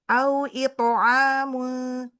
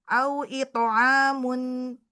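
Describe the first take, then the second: Both takes have the same delivery.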